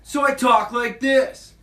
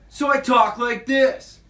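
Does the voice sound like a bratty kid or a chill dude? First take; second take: bratty kid; bratty kid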